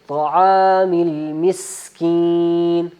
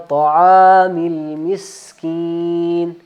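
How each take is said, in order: The two takes are said the same way.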